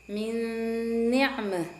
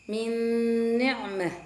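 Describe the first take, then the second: Both takes have the same delivery.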